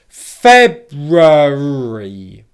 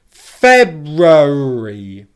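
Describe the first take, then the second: Both takes have the same delivery.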